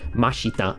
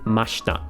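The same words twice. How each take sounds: First: The middle i vowel is fully voiced. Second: The middle i vowel is nearly silent. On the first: The speaker calls it wrong. "I'm not saying mashita" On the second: The speaker calls it right. "I'm saying mashita. ... you would kind of silence that that I there a little bit"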